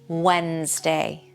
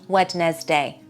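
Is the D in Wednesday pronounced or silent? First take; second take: silent; pronounced. First: The D sound in the middle is silent. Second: The D sound in the middle is pronounced. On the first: The speaker calls it right. "Don't pronounce that D" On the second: The speaker calls it wrong. "It's not Wednesday"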